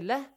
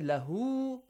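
First: The word ends abruptly with no final vowel. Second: The word ends with a stretched final vowel. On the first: The reciter stops at this word. The speaker calls it right. "If you say لَهْ" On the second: The reciter continues past this word. The speaker calls it wrong. "you do not say لَهُ because you stop there"

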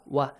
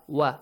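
First: The syllable begins with a rounded w sound. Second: The same.

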